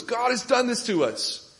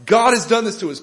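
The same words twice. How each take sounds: First: "done" lifted high and held, falling to the end; stress on done. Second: "God" hit loud and high, falling after; stress on God. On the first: Judah personified repeating the lament, stress on "done". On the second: Judah personified lamenting, stress on "God". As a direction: punch the word "God" hard. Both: Acted. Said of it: "the emphasis upon".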